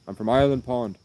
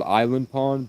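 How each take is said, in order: First: "Ireland" for Island, a mild Irish lilt. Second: Said in the usual way. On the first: Retold or imitated. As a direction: say "Ireland Pond" with "Ireland" spoken like the country. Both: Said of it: "so he said it Ireland".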